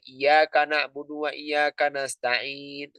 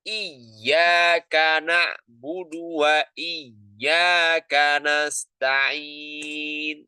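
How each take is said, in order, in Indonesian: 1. Dibaca datar, tanpa menekan huruf yang bertasydid. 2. Dibaca dengan menekan kuat huruf yang bertasydid. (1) "Datar aja, lempeng aja itu namanya. ... Salah" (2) "Tapi harus ada penekanan"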